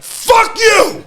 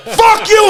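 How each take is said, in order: First: Triumphant yell. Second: High, loud victory shout; triumphant yell. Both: Retold or imitated. Wrestler who just won, shouting in triumph. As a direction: yell it at the crowd after the win.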